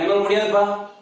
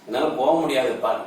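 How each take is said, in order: First: It is said forcefully, as a refusal. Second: It is said softly, as helplessness.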